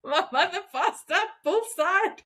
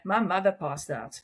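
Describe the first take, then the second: First: Laughing through the words; amused retelling, laughing as you speak. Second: Said in the usual way. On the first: Real, not acted. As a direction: say it while giggling at the memory. Same line retold, laughing.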